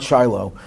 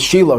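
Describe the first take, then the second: First: The name is said with anglicized English pronunciation. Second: The name is said with Hebrew pronunciation. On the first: The speaker calls it wrong. "not Shiloh" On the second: The speaker calls it right. "but it's Shiloh"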